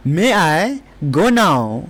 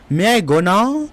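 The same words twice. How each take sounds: First: Very slow, word by word; slow teacher demo; slow model sentence. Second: Said in the usual way. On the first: Shown as a demonstration. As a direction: stretch it out so students can copy. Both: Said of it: "क्या मैं अब जा सकता हूँ?".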